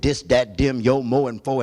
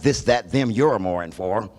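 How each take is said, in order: First: The final r sounds are dropped. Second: The final r sounds are pronounced. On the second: This is the standard way of saying it. "and not this"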